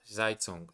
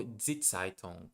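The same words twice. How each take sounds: First: Zeitung with an English buzzing z; first-guess Zeitung, voiced z at the start; uncorrected Z. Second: Zeitung with a ts sound at the start; corrected Die Zeitung, starting ts; German Z. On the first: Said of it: "let me see the pronunciation". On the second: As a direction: say the Z of Zeitung as ts, like "cats". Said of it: "because of the Z". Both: Real, not acted.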